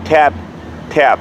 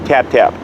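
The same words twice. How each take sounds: First: The two taps are separated by a clear gap. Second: The two taps follow each other with no gap. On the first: The dog has time to recover between corrections. The speaker calls it right. "I would go slower" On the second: The corrections come too fast to recover from. The speaker calls it wrong. "pretty rapid fire"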